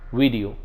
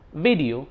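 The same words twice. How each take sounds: First: The word starts with a w sound. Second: The word starts with a v sound. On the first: The speaker calls it wrong. "not vote, van, video" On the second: The speaker calls it right. "say vote, van, video"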